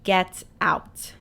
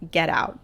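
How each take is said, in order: First: The final T sounds are clearly pronounced. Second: The final T sounds are dropped. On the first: The speaker calls it right. "There are T's at the end of that word" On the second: The speaker calls it wrong. "in a Midwestern accent, I'm not pronouncing it correctly"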